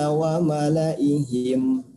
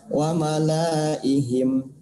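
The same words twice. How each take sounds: First: The vowel after 'l' is short. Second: The vowel after 'l' is long. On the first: The speaker calls it right. "la-nya dibaca pendek" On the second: The speaker calls it wrong. "tidak boleh dibaca wa malaihim"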